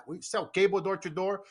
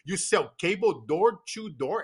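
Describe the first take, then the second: First: Said in the usual way. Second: Slowed-right-down question; slow careful speech. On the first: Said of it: "he's like". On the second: Retold or imitated. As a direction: imitate your younger self speaking very slowly. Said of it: "I used to speak very slowly".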